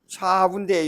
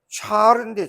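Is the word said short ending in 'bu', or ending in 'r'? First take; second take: short bu; ending r. First: It is said short, ending in a 'bu' sound. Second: It is said longer, ending in an 'r' sound. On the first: The speaker calls it right. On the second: The speaker calls it wrong.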